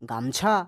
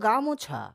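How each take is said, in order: First: No vowel is heard between the m and ch. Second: A vowel is heard between the m and ch. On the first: This is the everyday spoken form. "কিন্তু আমরা উচ্চারণ কি করছি?" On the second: This is the full form built from its parts. "Actually তো গামোছা"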